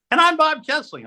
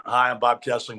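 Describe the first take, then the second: First: Scared high voice. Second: Said in the usual way. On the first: Retold or imitated. Rookie anchor squeaks his name beside a legend. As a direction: voice cracking way up high with nerves. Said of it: "I'm talking about the octaves too. I'm scared". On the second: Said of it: "I'm talking about the octaves too".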